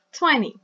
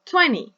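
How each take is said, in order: First: Quick "twenty", stress on the first syllable; fast twenty. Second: Twenty said quick, the t in the middle light; fast twenty. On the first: Teacher repeats fast "twenty" for the class. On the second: Teacher shows how "twenty" sounds at speed. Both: Shown as a demonstration. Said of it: "If you say fast".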